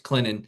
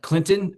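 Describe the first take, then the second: First: The name is said quickly, the local way. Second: The name is said carefully, in a standard way.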